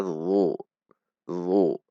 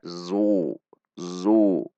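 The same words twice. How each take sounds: First: "zu" as thick voiced th, tongue root tensed; heavy dha sound. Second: "zu" with a buzzing z, tongue behind the teeth; wrong zai sound. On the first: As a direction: say "zu" as a heavy emphatic dh. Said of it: "Dengan menegangkan pangkal lidah". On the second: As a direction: buzz "zu" like the letter zai. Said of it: "Itu dengan zai namanya". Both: Shown as a demonstration.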